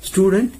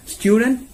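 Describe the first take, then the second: First: Student said stoo-dent, no yoo glide; American pronunciation. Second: Student said styoo-dent with a yoo glide; British pronunciation. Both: Shown as a demonstration.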